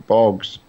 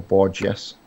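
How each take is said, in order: First: Bourges as one syllable, "borgs"; unsure pronunciation. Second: Bourges as two syllables, "bor-jess"; alternative pronunciation. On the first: Driver guessing a French town's name, Bourges as "borgs". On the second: Driver trying another guess at the town, Bourges as "bor-jess". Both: Real, not acted. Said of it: "if however it's pronounced".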